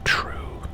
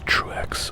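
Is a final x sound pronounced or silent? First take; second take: silent; pronounced. First: The name ends without any x sound. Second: The name ends with a pronounced x sound.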